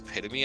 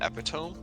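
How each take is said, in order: First: The word is said the standard way. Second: The word is said as it is spelled. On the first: The speaker calls it right. "it was epitome" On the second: The speaker calls it wrong. "not epitome, because I had only read it"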